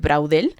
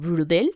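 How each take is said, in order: First: The name is said with a Spanish-style pronunciation. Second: The name is said with a French-style pronunciation. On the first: "así se diría en español" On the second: "no sé pronunciar bien francés, pero creo que es algo así como"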